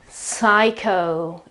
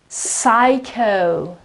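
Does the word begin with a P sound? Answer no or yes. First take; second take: no; no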